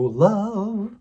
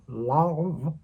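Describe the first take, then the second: First: The vowel sounds bright and forward. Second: The vowel sounds dark and placed back. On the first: "Most singers go" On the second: "where he would darken it"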